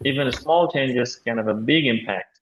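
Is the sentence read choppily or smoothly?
smoothly. The words are linked together in natural flow. The speaker calls it right. "উনি কিন্তু naturally পড়েছেন"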